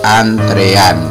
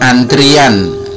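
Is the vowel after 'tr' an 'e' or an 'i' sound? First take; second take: e; i. First: The vowel after 'tr' sounds like 'e'. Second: The vowel after 'tr' sounds like 'i'. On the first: The speaker calls it right. "ternyata yang benar adalah antrean" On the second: The speaker calls it wrong. "Banyak orang mengucapkan antrian"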